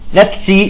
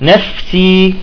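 First: The f is held back and choked off. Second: The f is released with audible breath. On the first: The speaker calls it wrong. "بيحبسها" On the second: The speaker calls it right. "لا"

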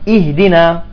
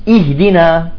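No difference in how they are said.

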